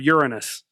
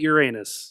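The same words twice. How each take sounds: First: It is said the plain, non-joking way. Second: It sounds like the joking 'your anus'. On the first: It is said the non-fun way. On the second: It is said the fun, joking way.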